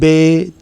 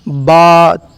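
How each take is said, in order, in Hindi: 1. उर्दू लहज़ा, 'ay' स्वर पर खत्म होता है। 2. अरबी लहज़ा, 'ah' स्वर पर खत्म होता है। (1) "बहुत से ऐसे लोग होते हैं जो इसको इस तरह पढ़ते हैं" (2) "बल्कि इसको इस तरह पढ़ना चाहिए"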